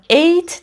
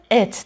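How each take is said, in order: First: ایت with a long "ay" glide, like "eight"; ایت, the unreduced -ate ending; wrong full-vowel ending. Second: ات as a reduced "ut" with a schwa; ات, no "ay" glide; schwa ending. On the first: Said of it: "تلفظ نمی کنیم". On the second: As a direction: say ات with a neutral vowel, then t. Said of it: "یه شوا تلفظ می کنیم و یه دونه ت". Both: Shown as a demonstration.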